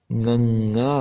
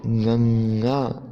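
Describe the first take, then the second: First: "गंगा" said through the nose, nasal ng at the start; nasal letter sound. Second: "गंगा" drawn out very slowly with a nasal ng; slow nasal demo. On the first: Teacher showing students the nasal Gurmukhi letter, said nasally. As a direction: push "गंगा" out through the nose at normal pace. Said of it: "नाक के द्वारा जोर लगाया जाता है". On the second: Teacher repeating the nasal letter slowly for students to copy. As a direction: stretch "गंगा" slowly through the nose. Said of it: "उसको कैसे बोलेंगे?". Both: Shown as a demonstration.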